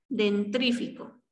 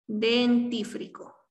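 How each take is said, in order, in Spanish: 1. El sonido r va justo después de la t. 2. El sonido r va justo después de la f. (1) "lo incorrecto es dentrífico" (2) "La forma correcta de pronunciar este término sería dentífrico"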